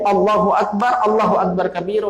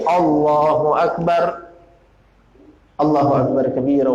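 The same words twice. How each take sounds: First: The phrases run together with no pause between. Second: A short pause separates the two phrases. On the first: The speaker calls it wrong. "itu bertentangan dengan sunnah" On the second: The speaker calls it right. "itu baru pas, sesuai dengan sunnah"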